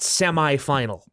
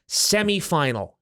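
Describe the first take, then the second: First: Semi is said the American way. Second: Semi is said the Canadian way. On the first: The speaker calls it wrong. "Semi is the American way of saying it" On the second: The speaker calls it right. "We're in Canada"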